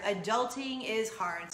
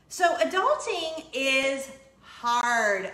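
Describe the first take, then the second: First: Said in the usual way. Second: ADULTING drawn out, louder and slow; emphatic slow punchline. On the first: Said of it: "repeat of punchline". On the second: Real, not acted. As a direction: lean hard on "adulting" and stretch "So adulting is hard". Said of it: "slow emphatic punchline".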